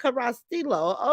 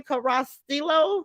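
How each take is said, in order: First: "Carrastillo." said firmly with a falling tone, quieter; settled pronunciation. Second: "Carrastillo?" tried out slowly with a questioning rise; tentative pronunciation. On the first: Host confirms a viewer's surname, "Carrastillo." said with a settled fall. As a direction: land on "Carrastillo." as the final answer. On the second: Host checks a viewer's surname, asking "Carrastillo?" with a rising tone. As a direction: test "Carrastillo?" like you're unsure, lifting at the end. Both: Shown as a demonstration. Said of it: "how you say your last name?".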